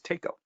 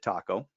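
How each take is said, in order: First: It is pronounced unlike the Mexican food word. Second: It is pronounced like the Mexican food word. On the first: This is the company's initials read as a word. "It was taco" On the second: This is the food's name. "it never occurred to anybody to pronounce it taco"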